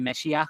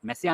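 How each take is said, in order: First: The middle consonant is an 'sh' sound. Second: The middle consonant is a plain 's' sound. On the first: "pronunciation అట్లా చేయాలి" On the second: "మెస్సియా అనుకున్న దాన్ని"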